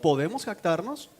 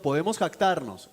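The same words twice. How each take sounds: First: It is said as a rising question. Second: It is said as a flat statement.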